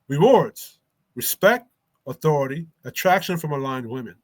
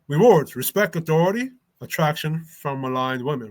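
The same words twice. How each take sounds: First: It is read at a slow pace. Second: It is read at a faster pace.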